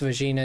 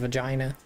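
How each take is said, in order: First: The word is said the Portuguese way. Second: The word is said the English way. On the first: "It's just pronounced vagina" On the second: "instead of vagina"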